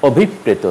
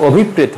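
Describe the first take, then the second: First: অভিপ্রেত said the right way, falling; অভিপ্রেত clearly and correctly pronounced; correct pronunciation. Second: অভিপ্রেত said the mistaken way; অভিপ্রেত as learners often mispronounce it; wrong pronunciation. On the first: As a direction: model অভিপ্রেত for students. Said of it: "উচ্চারণ হবে". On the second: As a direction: read অভিপ্রেত the naive way. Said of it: "হবে না". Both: Shown as a demonstration.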